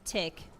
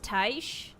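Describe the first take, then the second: First: The name ends with a k sound. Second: The name ends with an sh sound. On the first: The speaker calls it wrong. "the first time I played the game, I pronounced it Tick" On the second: The speaker calls it right. "But I think it's pronounced Taish"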